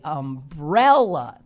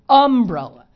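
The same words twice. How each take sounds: First: The stress is on the second syllable. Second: The stress is not on the second syllable. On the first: This is how most people say it. The speaker calls it right. "They say umbrella, the second syllable" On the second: This is how Pittsburghers say it. The speaker calls it wrong. "Most people don't say the words like that"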